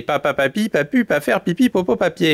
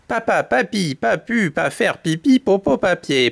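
First: Quick tongue-twister, words run together; faster recital. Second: Measured tongue-twister. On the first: Storyteller tells chicks to speed up, faster second take. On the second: Storyteller shows chicks the tongue-twister, unhurried first take. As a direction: recite with small gaps between the words. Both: Shown as a demonstration. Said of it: "récitez de plus en plus vite".

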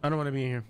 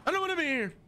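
First: Said in the usual way. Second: Higher, whiny plea; scared in the daycare, high whiny plea; high whine. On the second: Real, not acted. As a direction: whimper it up high. Same line, high whine.

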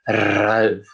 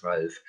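First: Ralf with a long trilled R; rolled R. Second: Said in the usual way. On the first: Acted. Dragon trying out a name, Ralf with a rolled R. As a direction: draw out the R at the start of Ralf. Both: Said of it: "weil ich das jetzt so gut sprechen kann".

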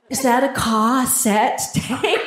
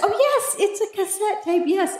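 First: "cassette" said slowly and haltingly, like an unknown word; mispronounced cassette. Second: High, light reply with "cassette" run off easily; mock flattered. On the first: Retold or imitated. Young passer-by asking about an old relic, "cassette" mispronounced. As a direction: sound out "cassette" in drawn-out, careful pieces. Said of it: "She couldn't even say the word right". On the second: Answering a stranger curious about the tape, playfully flattered. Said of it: "I was flattered there for a moment".

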